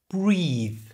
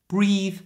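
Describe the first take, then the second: First: It is said slowly with exaggerated emphasis. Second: It is said at normal speed without exaggeration. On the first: "say them first slowly with emphasis" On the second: "said at a normal speed without that exaggeration"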